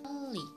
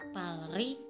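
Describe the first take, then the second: First: The middle consonants sound like an l. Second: The middle consonants sound like l and r. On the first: The speaker calls it right. "yang benar pengucapannya adalah pali" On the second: The speaker calls it wrong. "harusnya dibaca palri"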